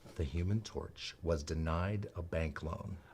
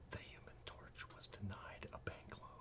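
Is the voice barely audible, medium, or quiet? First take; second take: medium; barely audible. First: It is said at a moderate volume. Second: It is said almost silently.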